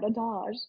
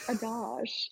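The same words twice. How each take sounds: First: The word is pronounced the English way. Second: The word is pronounced the French way.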